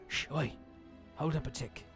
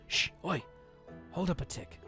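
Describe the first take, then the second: First: It is spoken in a Cockney English accent. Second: It is spoken without an English accent.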